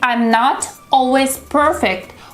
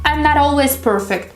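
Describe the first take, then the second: First: The T in not is a crisp T. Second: The T in not sounds like a D. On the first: The speaker calls it wrong. "We don't say" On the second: The speaker calls it right. "We say"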